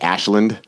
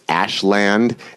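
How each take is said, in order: First: The second syllable is reduced and quick. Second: The second syllable is said fully, like 'land'. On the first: This is how locals usually say the town's name. "We pronounce it like Ashland" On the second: The name literally means a land of ash. "but it's Ashland"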